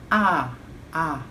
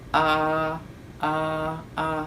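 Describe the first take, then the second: First: The vowel is clear, with the mouth opened wide. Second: The vowel is muffled, with the mouth barely open. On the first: The speaker calls it right. "tapi A-nya jelas" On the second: The speaker calls it wrong. "jangan seperti ini"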